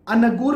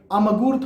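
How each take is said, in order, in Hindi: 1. g से पहले की नासिक ध्वनि साफ़ n है। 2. g से पहले की नासिक ध्वनि साफ़ m है। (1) "अनगूर भी नहीं कहते" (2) "अमगूर थोड़े कहते आप"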